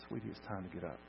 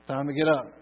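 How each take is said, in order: First: Soft, low, tender murmur; gentle waking. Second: Loud, raised wake-up call. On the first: Parent waking a child from a nap, gently. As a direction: rouse a napping child very softly. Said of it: "real gently". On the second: Jesus to everyone in the graveyard, calling loudly. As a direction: call the sleepers up with full voice. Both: Acted.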